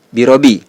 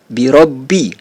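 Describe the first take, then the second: First: The b sound is single and short. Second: The b sound is doubled and held longer. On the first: The speaker calls it wrong. "bukan dibaca" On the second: The speaker calls it right. "huruf ba itu dibaca double"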